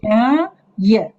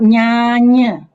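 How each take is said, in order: First: The second syllable begins with a y sound. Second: The second syllable begins with an n sound. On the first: The speaker calls it right. "It's nyaya" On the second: The speaker calls it wrong. "not nyanya"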